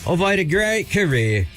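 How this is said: It is said in an English accent.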